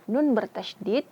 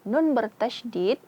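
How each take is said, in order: The two takes are said the same way.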